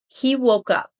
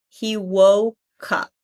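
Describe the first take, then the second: First: The phrase is said at normal speed. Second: The phrase is said slowly.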